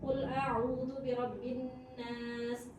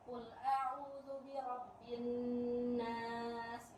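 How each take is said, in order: First: The verse is recited at a fast pace. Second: The verse is recited at a slow pace. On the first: "Itu mode tilawah cepat" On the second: "Itu mode pelan"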